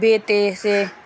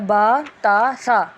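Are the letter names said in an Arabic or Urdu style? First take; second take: Urdu; Arabic. First: The letter names end in an 'e' vowel. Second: The letter names end in an 'a' vowel. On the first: The speaker calls it wrong. "ये उर्दू लहजा है" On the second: The speaker calls it right. "अरबी लहजा होता है"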